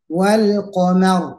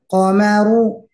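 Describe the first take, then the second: First: It stops directly on the final r. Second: It ends with a vowel after the r. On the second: "Yang tidak bertasdid"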